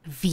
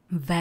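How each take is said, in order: First: V said as English "vee"; English letter name. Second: V said as Czech "vé"; Czech letter name. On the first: Teacher shows how it is read, V as English "vee". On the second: Teacher names the letter for learners, V as Czech "vé". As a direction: read V the Czech way, "vé". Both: Shown as a demonstration. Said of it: "se čte anglicky".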